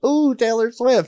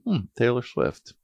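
First: It sounds excited and thrilled. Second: It sounds flat and neutral.

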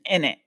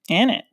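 First: It is said in a London accent. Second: It is said in the speaker's usual accent.

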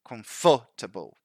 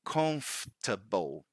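First: The stress falls on a later syllable. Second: The stress falls on the first syllable. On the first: The speaker calls it wrong. "they try to put the emphasis in the wrong syllable" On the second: The speaker calls it right. "the right way is comfortable"

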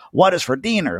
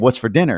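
First: It is said in an exaggerated Spanish accent. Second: It is said in a plain, ordinary accent.

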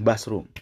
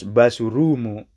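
First: It is said English-style without added vowels. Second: It is said Japanese-style with added vowels. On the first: "kita bilang basrum" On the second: "Terus basurumu"

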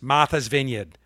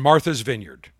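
First: It is said in a Massachusetts accent. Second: It is said in his ordinary accent.

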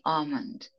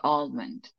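First: The L sound is left out of the word. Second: The L sound is pronounced in the word. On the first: "In British, they don't pronounce the L" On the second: "In American, they say almond"

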